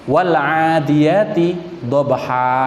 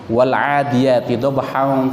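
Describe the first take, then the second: First: It stops on a long final vowel. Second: It runs straight on into the next verse. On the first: "kalau kita baca waqaf diberhentikan" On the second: "kalau kita baca wasol"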